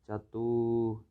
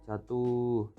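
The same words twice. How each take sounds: The two takes are said the same way.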